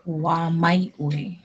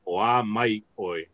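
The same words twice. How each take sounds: First: Slow "Oa mai oi" with the weight on "mai"; teacher modelling the stress. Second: Slow "Oa mai oi", "mai" prominent; stress on mai. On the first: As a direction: lean on "mai" in "Oa mai oi". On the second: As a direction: lean into "mai" in "Oa mai oi". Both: Shown as a demonstration. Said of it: "the accent is put on the mai".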